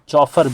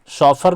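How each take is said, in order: First: The word begins with a 'ch' sound. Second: The word begins with an 'sh' sound. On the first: This reading follows the spelling to help remember it. "इसको चौफर भी पढ़ सकते हो" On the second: This is how the word is actually pronounced. "शॉफर बोलेंगे, इसको pronounce करेंगे"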